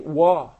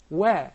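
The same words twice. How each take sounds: First: The wa is said with a heavy, thick sound. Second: The wa is said with a light, thin sound. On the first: The speaker calls it wrong. "Please do not say wa" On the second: The speaker calls it right. "It is one of the tarqiq letters. And it is permanently muraqaqa"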